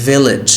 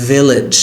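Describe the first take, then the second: The two takes are said the same way.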